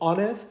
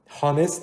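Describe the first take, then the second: First: The word begins with a vowel, no h. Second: The word begins with an h sound. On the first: The speaker calls it right. "ولی الان که میگیم honest" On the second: The speaker calls it wrong. "هانست نمیگیم"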